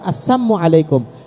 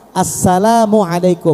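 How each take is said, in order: First: The greeting is said without the syllable 'la'. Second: The greeting is said with the full syllable 'la'. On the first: It wishes poison upon the listener. The speaker calls it wrong. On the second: It wishes peace upon the listener. The speaker calls it right. "ucapkan salam itu yang benar, yang tepat"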